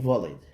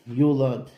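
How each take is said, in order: First: The vav is pronounced as a consonant. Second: The vav is pronounced as a vowel.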